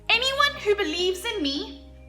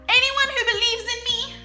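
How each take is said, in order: First: It is said at normal volume. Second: It is said as loudly as possible.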